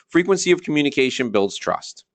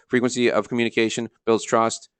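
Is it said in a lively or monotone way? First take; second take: lively; monotone. First: It is said with lively, varied energy. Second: It is said in a flat monotone.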